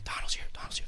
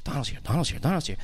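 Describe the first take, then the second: First: Hushed whisper spreading through the pews. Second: Said in the usual way. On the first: Retold or imitated. Churchgoers whispering as Donald walks in, hushed whisper.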